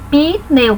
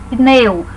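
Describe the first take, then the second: First: Pneu mispronounced as pi-neu with an added i; wrong pneu. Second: Pneu said as one syllable, P and N together with no vowel between; correct pneu. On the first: Retold or imitated. Teacher imitates a common error, adding an i to pneu. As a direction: insert an "i": pi-neu, the mistake. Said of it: "algumas pessoas escrevendo pneu, P I N E U". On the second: Shown as a demonstration. Teacher models the correct pneu for students, no added i. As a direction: say pneu with the p straight into the n. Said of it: "Cuidado com essa palavra, é P N, não tem o I".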